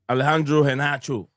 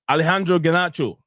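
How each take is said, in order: First: The surname starts with a breathy H sound. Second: The surname starts with a hard G sound. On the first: The speaker calls it right. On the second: The speaker calls it wrong.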